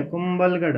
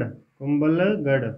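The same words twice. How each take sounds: First: Said in the usual way. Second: Kumbhalgarh stretched out slowly, lower; slow dictation. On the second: Shown as a demonstration. Teacher dictating to students who are writing, Kumbhalgarh said very slowly. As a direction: draw out Kumbhalgarh part by part for note-takers.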